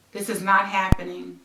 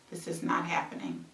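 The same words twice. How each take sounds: First: Said in the usual way. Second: Much softer, trailing away; fading whisper-quiet. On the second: Real, not acted. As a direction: let it fade to almost nothing. Repeating in disbelief, fading.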